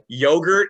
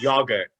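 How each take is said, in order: First: It is said in a plain American accent. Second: It is said in an imitated British accent.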